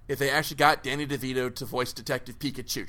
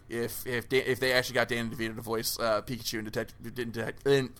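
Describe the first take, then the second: First: Said in the usual way. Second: Rushing and stumbling over "Detective"; fast, tripping over the words; tongue-tied. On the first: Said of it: "try and say that five times fast". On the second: Real, not acted. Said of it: "getting tongue-tied".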